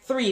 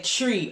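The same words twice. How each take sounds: First: Said in the usual way. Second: "tree" said with a plain t, no th sound; three said as "tree", Jamaican style; Jamaican pronunciation. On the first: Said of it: "Words like three". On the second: Shown as a demonstration. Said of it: "they said tree".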